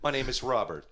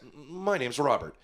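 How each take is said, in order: First: The voice sounds flat and mechanical, like a robot. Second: The voice sounds casual and nearly human. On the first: The speaker calls it wrong. "terrible robot" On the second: The speaker calls it right. "the first robot will sound almost human"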